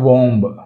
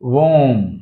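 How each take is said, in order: First: The word ends with an audible b. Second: The word ends in m with no b. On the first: The speaker calls it wrong. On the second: The speaker calls it right.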